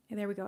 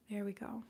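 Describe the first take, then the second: First: Said in the usual way. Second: Soft whisper, barely voiced; whispered there we go. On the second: Real, not acted. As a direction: breathe it out as a whisper. Whispered aside while energy completes.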